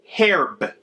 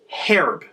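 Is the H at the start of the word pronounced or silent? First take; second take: pronounced; pronounced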